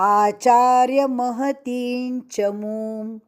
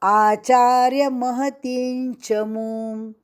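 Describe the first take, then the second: Both takes have the same delivery.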